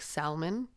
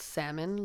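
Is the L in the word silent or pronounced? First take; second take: pronounced; silent. First: The L sound is pronounced. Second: The L sound is silent. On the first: The speaker calls it wrong. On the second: The speaker calls it right.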